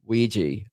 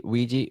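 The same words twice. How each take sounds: First: "Ouija" said as WEE-jee, two syllables. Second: "Ouija" said as uh-WEE-jee, three syllables. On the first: Deciding how to say "Ouija" aloud, "Ouija" as WEE-jee. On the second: Testing how to say "Ouija" aloud, "Ouija" as uh-WEE-jee. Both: Shown as a demonstration. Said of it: "is a Ouija three syllables or two syllables".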